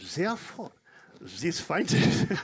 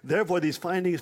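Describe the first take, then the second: First: It is spoken in a put-on German accent. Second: It is spoken in the speaker's normal accent.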